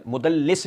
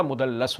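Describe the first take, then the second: First: مدلس said "mudallis", with a short i; mispronounced with i. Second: مدلس said "mudallas", with a short a; corrected with a. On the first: Correcting the term for listeners, مدلس said with an i. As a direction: stress the wrong i in مدلس, "mudal-LIS". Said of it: "تدلیس کا فاعل مدلس نہیں ہوتا". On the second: Correcting the term for listeners, مدلس said with an a. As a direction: give مدلس an a in the last syllable. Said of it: "مدلس ہوتا ہے". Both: Shown as a demonstration.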